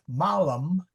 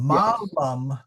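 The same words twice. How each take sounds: First: The first vowel is short. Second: The first vowel is long. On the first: The word means evil. "short A, is evil" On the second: The word means an apple. "long A, is an apple"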